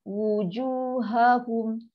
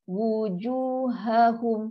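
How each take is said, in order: The two takes are said the same way.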